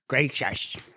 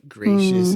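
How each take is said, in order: First: It is said in a rough, ungracious way. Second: It is said in a gentle, gracious way.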